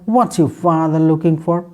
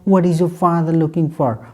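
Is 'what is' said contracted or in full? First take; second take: contracted; full. First: What and is are joined into whats. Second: What and is are said as separate words.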